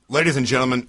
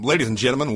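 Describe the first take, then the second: First: It is said in the speaker's ordinary voice. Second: It is said in a put-on pilot announcement voice. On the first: The speaker calls it wrong. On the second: The speaker calls it right.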